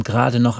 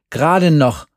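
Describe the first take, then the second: First: Said in the usual way. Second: "Gerade noch" pitched higher, punched out; indignant emphasis. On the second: A narrator's reading. Jerry repeats the teacher's verdict, "Gerade noch" stressed indignantly. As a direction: throw "Gerade noch" back in disbelief.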